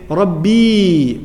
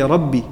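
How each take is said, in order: First: The final vowel is drawn out long. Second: The final vowel is cut short.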